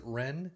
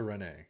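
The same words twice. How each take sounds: First: Rennes said as "ren", no "ay"; one-syllable Rennes. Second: Rennes said as "ren-AY"; two-syllable Rennes. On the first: Host second-guessing the club's name, Rennes as plain "ren". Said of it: "Is that how you pronounce it?". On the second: Football host guessing at a club's name, Rennes as "ren-ay". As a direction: say Rennes with an added "ay" ending. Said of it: "Or is it Rennes?". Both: Real, not acted.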